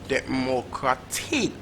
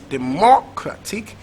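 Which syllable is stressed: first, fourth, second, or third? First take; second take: fourth; second. First: The stress is on the fourth syllable. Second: The stress is on the second syllable. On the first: "Or is it last syllable" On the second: "Is it second syllable"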